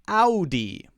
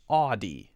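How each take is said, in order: First: The first syllable has the 'ow' vowel. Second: The first syllable has a different vowel. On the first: The speaker calls it right. "Ow. Just like A W" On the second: The speaker calls it wrong. "Notice it's not Audi"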